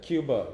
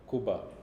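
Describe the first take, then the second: First: The first syllable sounds like 'kyoo'. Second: The first syllable sounds like 'koo'. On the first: The speaker calls it right. "E U there" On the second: The speaker calls it wrong. "not Cuba"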